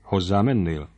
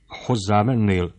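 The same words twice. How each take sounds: First: Coldly controlled question; understated icy father's question; ice-cold. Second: Slow, mildly harsh question; understated grim screech, drawn out; screeching, stern. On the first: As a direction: ask it evenly, with icy restraint. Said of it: "szólt aztán jéghidegen". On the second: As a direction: ask it sternly, stretching the words. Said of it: "kérdi rikácsoló zordon hangon". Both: A narrator's reading.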